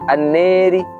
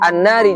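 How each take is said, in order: First: The long vowel is tilted toward e. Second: The long vowel is a plain open a.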